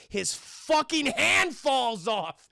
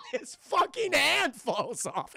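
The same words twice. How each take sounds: First: Drawn-out, emphatic reveal; slow emphasis. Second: High, slow, cracked-up repeat; laughing disbelief. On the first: Storyteller reveals the gory twist to chat, slow emphasis. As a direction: stretch out every word for the reveal. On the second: Storyteller cracks up at the gory twist, high laughing delivery. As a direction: say it through laughter, pitched up. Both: Real, not acted.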